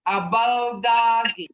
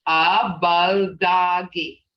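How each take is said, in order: First: Abaldagi said slowly and firmly; slow demo word. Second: Abaldagi stretched very slowly and louder; very slow demo. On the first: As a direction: sound out Abaldagi. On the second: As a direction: drag out Abaldagi syllable by syllable. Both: Shown as a demonstration. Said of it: "those are in your sounds".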